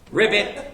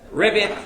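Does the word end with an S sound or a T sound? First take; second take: T sound; T sound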